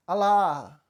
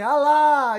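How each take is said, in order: First: Mock call, only a little louder; a half-hearted first cry of "Alá!"; timid shout of Alá. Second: Much higher, louder cry of Alá; a frightened young man yells "Alá!" on command; trying to shout. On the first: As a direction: call out Alá without much force. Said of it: "aí ele gritou". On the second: Retold or imitated. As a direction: force the name out as loud as you can. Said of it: "ele tentou gritar".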